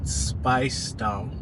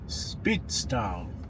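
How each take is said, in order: First: The first syllable rhymes with spice. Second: The first syllable sounds like spit. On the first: "as if they're saying spice as in food condiments" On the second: "like a spitball"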